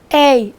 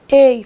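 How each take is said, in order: First: The vowel of the diphthong is open. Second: The vowel of the diphthong is closed.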